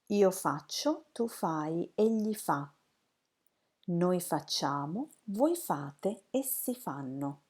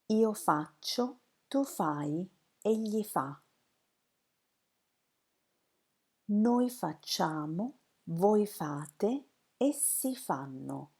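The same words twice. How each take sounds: First: It is said at a faster pace. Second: It is said at a slower pace.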